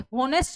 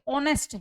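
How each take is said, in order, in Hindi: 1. यह शब्द h ध्वनि से शुरू होता है। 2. यह शब्द स्वर ध्वनि से शुरू होता है। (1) "ये होनेस्ट नहीं है" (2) "ये ऑनेस्ट है। एच जो वर्ड है इसके अंदर साइलेंट है"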